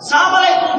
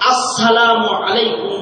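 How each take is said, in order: First: The opening 'as' sound is dropped entirely. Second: The opening 'as' sound is said clearly. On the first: The speaker calls it wrong. "এভাবে সালাম দিব না ... এগুলো সবই গলত" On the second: The speaker calls it right. "শুধু হামজা সুস্পষ্ট রূপে উচ্চারণ করে এইভাবে সালাম দেওয়া"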